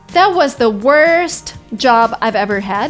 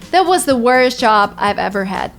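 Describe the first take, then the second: First: The t in 'worst' is clearly pronounced. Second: The t in 'worst' is dropped.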